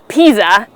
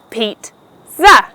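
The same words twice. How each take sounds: First: No T sound is heard in the middle. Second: A T sound is heard in the middle. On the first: The speaker calls it wrong. "as many people wrongly pronounce it" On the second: The speaker calls it right. "it is pronounced with the T sound"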